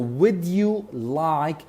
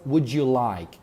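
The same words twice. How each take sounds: First: Would and you are said as separate words. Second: Would and you blend into a j sound.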